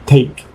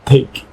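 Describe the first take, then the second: First: The t has a strong puff of air. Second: The t has a strong puff of air.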